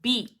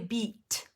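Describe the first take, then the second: First: The final T is held, not released. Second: The final T is clearly released. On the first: "You can say beat" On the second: "beat with a T at the end"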